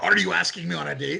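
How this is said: It is asked in a harsh, interrogating tone.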